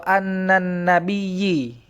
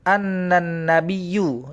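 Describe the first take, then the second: First: The last word ends in an i vowel. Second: The last word ends in a u vowel. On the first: "itu pasti salah" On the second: "itu pasti salah"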